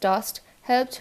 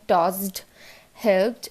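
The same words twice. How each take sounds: First: টসড, হেল্পড with light T endings; crisp T closing টসড and হেল্পড; easy T ending. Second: টসড, হেল্পড with heavy voiced D endings; stressed D ending. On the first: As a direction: say টসড, হেল্পড as "tost, helpt". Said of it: "বলতে পারছি". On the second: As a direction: say টসড, হেল্পড as "tozd, helbd". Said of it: "এরকম বলতে হচ্ছে না". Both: Shown as a demonstration.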